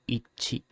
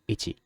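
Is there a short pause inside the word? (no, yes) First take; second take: yes; no. First: A short pause breaks the word in the middle. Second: The word is said without a break inside. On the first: The speaker calls it right. "it's more like ichi" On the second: The speaker calls it wrong. "It is not like ichi"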